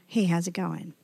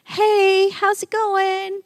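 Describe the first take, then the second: First: Low, soft, offhand hey how's it going; tossed off like a brush-off; casual passing greeting. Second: Much higher, slow bright hey how's it going; friendly greeting. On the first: Shown as a demonstration. Preacher contrasting a careless greeting, said low and offhand. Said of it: "That's not like a". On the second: Retold or imitated. Pastor greeting the man by the magnolia tree, high and bright. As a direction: call out warmly to the stranger. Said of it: "And I said".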